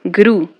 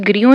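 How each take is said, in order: First: "ग्रू" said as one syllable with a plain oo; correct pronunciation. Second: "ग्रियो" with an extra ee-glide after gr; mispronunciation demo. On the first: Teacher showing how grew is read, correct "ग्रू" with oo. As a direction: say "ग्रू" to rhyme with blue, no y-glide. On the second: Teacher warning students off a misreading, mispronounced "ग्रियो" with a y-glide. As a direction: say grew wrongly as "ग्रियो", gree-yo. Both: Shown as a demonstration. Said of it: "इसको ग्रियो नहीं पढ़ते".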